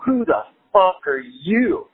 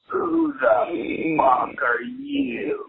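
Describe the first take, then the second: First: Slow, higher edgy mock retort. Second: Very slow, high, drawn-out mock stranger; toothless stranger. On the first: Edgy young guest answering the toothless stranger, slow mock challenge. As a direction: fire the question back slowly, acting an edgy youth. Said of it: "little more edgy in my youth". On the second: Toothless man confronting a waking houseguest, high drawn-out mock voice. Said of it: "toothless young man ... And he goes".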